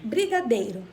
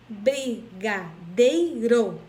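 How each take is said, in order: First: Said in the usual way. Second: Slow "brigadeiro" as bri, ga, dei, ro; split into syllables. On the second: Shown as a demonstration. Teacher counting syllables for pupils, "brigadeiro" split in four. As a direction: pause after each syllable of "brigadeiro". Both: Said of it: "Quando eu vou separar a palavra".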